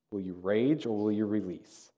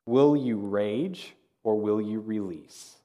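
First: Soft, quicker restatement of the choice; softer repeat. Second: Drawn-out question, leaving room to weigh both choices; slow and deliberate. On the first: Preacher repeating the choice to the congregation, softly. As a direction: lower the volume and let the question sink in. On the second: Preacher posing the third decision to the congregation, slow and deliberate. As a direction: pose each choice slowly and weightily. Key question, posed then repeated. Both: Shown as a demonstration.

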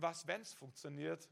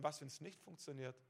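First: "wenn's" stressed, rising to an open question. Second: "was, wenn's nicht funktioniert" low and much softer, falling; dismissed doubting question. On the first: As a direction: lean on "wenn's" and lift the ending as a question. Contrasts hopeful question with doubting one. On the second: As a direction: drop "nicht funktioniert" away quietly, without a lift. Doubting question set against hopeful one. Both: Shown as a demonstration.

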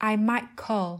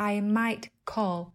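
First: "might" with a glottal stop, running into "call". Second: "might" with a released t before "call". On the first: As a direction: cut the t of "might" off in the throat. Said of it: "Vậy nên chúng ta sẽ đọc là". ("might" chặn hơi ở cổ họng, đọc liền sang "call") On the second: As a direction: sound out the final t of "might" fully. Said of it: "thay vì". ("might" bật rõ âm t trước "call") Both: Shown as a demonstration.

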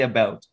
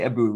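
First: Said in the usual way. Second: "a boot", the caricature of Canadian about; exaggerated Canadian vowel. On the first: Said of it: "We say". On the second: Shown as a demonstration. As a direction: say "a boot" with an oo as in food. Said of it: "There's no way we say".

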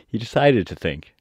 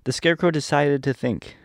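First: Amused whisper, laughing. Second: Said in the usual way. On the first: Shown as a demonstration. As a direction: whisper it with a chuckle. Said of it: "he doesn't just think".

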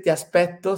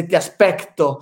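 First: Said in the usual way. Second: "aspecto" with a hard k before the t; foreigner's slip, "aspecto" with an audible k; Cristiano Ronaldo. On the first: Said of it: "que no puede decir". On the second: Retold or imitated. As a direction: say "aspecto" with c-t in place of Italian double t. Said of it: "sino que dice".

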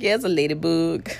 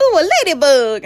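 First: Understated, unimpressed reply; retold deadpan. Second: High, louder imitation of delight; mock delighted cooing. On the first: Patient answering staff about her tattoo, retold deadpan. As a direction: answer the cooing with no excitement. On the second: Staff spotting her tattoo while draping her, mock delight. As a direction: coo it like someone spotting something cute.

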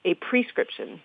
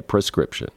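First: A prescription with a clear pree first syllable; spelling pronunciation. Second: Prescription with a quick unstressed pruh first syllable; pra pronunciation. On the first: Teaching how the spelling says it, a prescription with pree. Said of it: "the spelling is P R E". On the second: Insisting she said it with pra, prescription. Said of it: "like P R A". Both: Shown as a demonstration.

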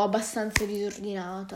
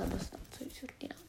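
First: Said in the usual way. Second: Unvoiced whispered repeat; whispered echo. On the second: Real, not acted. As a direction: whisper it back to yourself as an aside. Echoes own words as aside.

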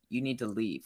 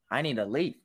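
First: Low-key statement, falling on "leave"; matter-of-fact order. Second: Rising questioning lift on "leave"; incredulous echo question. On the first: Assistant dismissing a student from the lab, matter-of-fact. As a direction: say "You need to leave" softer, ending downward. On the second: Student questioning the assistant's order, incredulous. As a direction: turn "I need to leave" into a question, ending upward. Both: Retold or imitated.

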